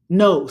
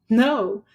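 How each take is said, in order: First: The word is said in a mean, harsh way. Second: The word is said in a nice, friendly way. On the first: "Say it with a mean face" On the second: "you can say it with a nice face"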